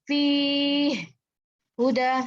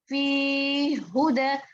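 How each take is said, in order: First: There is a brief stop between the two words. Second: The words run together with a forceful doubled sound. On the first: The speaker calls it wrong. "Kalau sakta tuh begini, fi huda. Nah, itu kan berhenti" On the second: The speaker calls it right. "harusnya agak lebih menghentakkan fi huda gitu. Fi huda, bukan berhenti ya"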